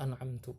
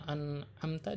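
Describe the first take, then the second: First: The word ends with an u vowel. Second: The word ends with an a vowel. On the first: The speaker calls it wrong. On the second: The speaker calls it right.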